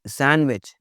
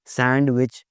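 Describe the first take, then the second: First: सैंडविच with no d; silent D. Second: सैंडविच with the d sounded; mispronounced D. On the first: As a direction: say सैंडविच as san-wich. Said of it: "डी की आवाज़ नहीं आती". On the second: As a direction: say सैंडविच as sand-wich. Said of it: "सैंडविच नहीं बोलना". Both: Shown as a demonstration.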